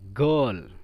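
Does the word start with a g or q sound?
g. The word begins with a g sound. This is the Yemeni and Saudi colloquial form. "Di amiyahnya dibaca gol"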